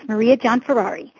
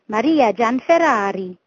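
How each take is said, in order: First: The name is said with an American accent. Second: The name is said with an Italian accent.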